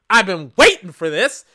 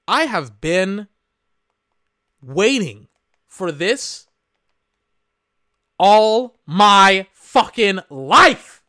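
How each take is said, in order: First: Said in the usual way. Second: Slow, heavy stress building to a loud fucking life; drawn-out emphasis. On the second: Real, not acted. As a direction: stretch every word, then punch all my fucking life. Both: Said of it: "let me tell you something".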